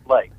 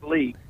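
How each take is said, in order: First: The name has the vowel of 'bake'. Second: The name has the vowel of 'beak'. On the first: The speaker calls it right. "but it's pronounced Lake" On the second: The speaker calls it wrong. "It's spelled like Leak"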